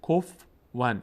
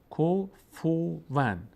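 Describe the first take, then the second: First: The f has no vowel after it. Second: The f takes a u, then a w sound. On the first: The speaker calls it wrong. "ف رو ساکن میخوانند" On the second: The speaker calls it right. "ف ضمه داره اینجا"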